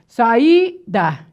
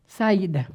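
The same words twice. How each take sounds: First: "Saída" split into sa-í-da, stressed I; syllable by syllable. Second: Said in the usual way. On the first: Shown as a demonstration. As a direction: break "Saída" apart, leaning on the I. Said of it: "qual é a sílaba tônica?". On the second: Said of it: "eu separo aqui".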